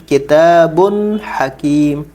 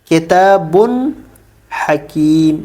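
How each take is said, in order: The two takes are said the same way.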